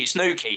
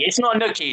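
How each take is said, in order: First: Nuki said the proper local way; Nuki, said correctly. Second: Nuki said as the wrong version, pitch up; Nuki, the mistaken pronunciation; mispronounced Nuki. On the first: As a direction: give Nuki its right pronunciation. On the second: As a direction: say Nuki the wrong way, as the others did. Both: Shown as a demonstration. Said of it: "N E U K".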